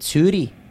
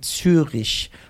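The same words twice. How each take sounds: First: It is said with a Swiss German accent. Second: It is said with a standard German accent.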